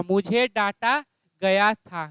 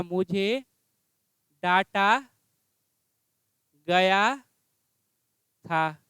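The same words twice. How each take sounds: First: Said in the usual way. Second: Slow dictation. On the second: Shown as a demonstration. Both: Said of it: "क्या हो जाएगा?".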